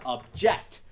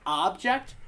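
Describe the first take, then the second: First: ObJECT, punching the "ject"; stress on second syllable. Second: OBject, punching the "ob"; stress on first syllable. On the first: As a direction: lean on the last syllable of "object". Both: Shown as a demonstration. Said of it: "which syllable".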